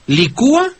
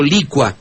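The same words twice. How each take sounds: First: "Licúa" as li-CÚ-a, three syllables; stress on the U. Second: "licua" as LI-cua, two syllables; stress on LI. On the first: Host asks the maestro about variants, "Licúa" stressed on U. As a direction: hit the ú in "Licúa". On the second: Host offers the maestro the other form, "licua" stressed on LI. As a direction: hit the first syllable of "licua". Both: Shown as a demonstration. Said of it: "¿cómo se dice?".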